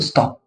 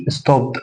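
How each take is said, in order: First: "ستوب" said as "stopt", crisp voiceless T; T ending. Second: "ستوب" said as "stob-d" with a voiced D; wrong D ending. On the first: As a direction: finish "ستوب" on a T sound, no D. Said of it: "هقول ستوب". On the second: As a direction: let the D sound at the end of "ستوب". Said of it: "لا، ما اقولش". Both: Shown as a demonstration.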